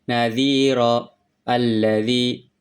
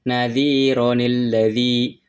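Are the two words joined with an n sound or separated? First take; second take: separated; joined. First: The words are kept separate without an n sound. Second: The words are joined with an added n sound. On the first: "ketika dipisah" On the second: "itu ketika disambung"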